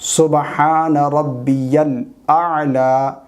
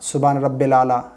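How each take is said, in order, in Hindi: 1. इसे 'rabbiyal' कहा जाता है, 'y' की आवाज़ के साथ। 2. इसे 'rabbil' कहा जाता है, 'y' की आवाज़ के बिना। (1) "इस तरीके से सजदे की तस्बीह पढ़ेंगे" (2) "ये गलत है"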